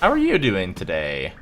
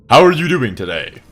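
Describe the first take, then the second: First: The greeting is said in an odd, unusual voice. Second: The greeting is said in a plain, normal voice. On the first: "I don't know why I said it like that" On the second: "let me do it more normally"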